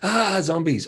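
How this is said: The 'ah' is a loud, frightened scream. Someone is terrified of the zombies. "the first one, like screaming"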